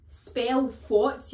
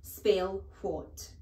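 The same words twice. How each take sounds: First: Furious shout. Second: Said in the usual way. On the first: Acted. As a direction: spell what barked loud and rising. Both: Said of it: "Spell what, you idiot?".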